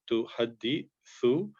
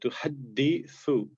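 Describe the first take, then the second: First: The d is light, with breaks between syllables. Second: The d is heavy and flows without breaks. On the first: The speaker calls it wrong. "wrongly um, you know um, read like a" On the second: The speaker calls it right. "there's not a break, and there's a, a continuation, and there should be a more of a stress"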